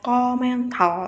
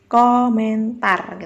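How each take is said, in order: First: The word is mumbled with unclear articulation. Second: The word is articulated clearly and distinctly. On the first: The speaker calls it wrong. "itu kan lafalnya nggak jelas" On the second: The speaker calls it right. "kejelasan lafal kayak nih"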